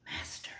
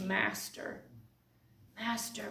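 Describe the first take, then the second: First: Whispered, hushed in awe; reverent whisper. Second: Awed, hushed. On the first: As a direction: breathe "Master." in awe, unvoiced. Mary recognizes Jesus, reverent. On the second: Mary's awed recognition of Jesus. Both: Acted.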